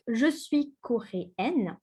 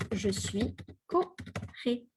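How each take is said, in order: First: Slow "coréenne" with the N sounded at the end; feminine coréenne. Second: Slow "coréen" ending in a nasal vowel, no N; masculine coréen. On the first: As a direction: say "coréenne" slowly, ending on a clear N. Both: Shown as a demonstration. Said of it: "here we add the E".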